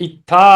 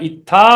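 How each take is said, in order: Both takes have the same delivery.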